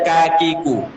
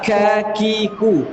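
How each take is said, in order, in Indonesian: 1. Bunyi k tidak melepaskan hembusan napas. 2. Bunyi k melepaskan hembusan napas yang jelas. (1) "bukan kakiku" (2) "ka itu mengalirkan nafas"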